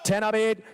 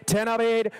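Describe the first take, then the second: No difference in how they are said.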